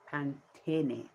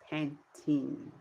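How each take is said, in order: First: Pantene as pan-TEH-neh; Spanish pronunciation. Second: Put-on Pantene said the English way, ending in -teen; English pronunciation. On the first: Showing viewers the conditioner brand, Spanish pronunciation of Pantene. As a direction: sound the final e in Pantene, Spanish style. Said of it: "so we say Pantene". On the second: Showing viewers the conditioner brand, English pronunciation. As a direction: say Pantene with a silent final e. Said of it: "In English, we call it Pantene". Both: Shown as a demonstration.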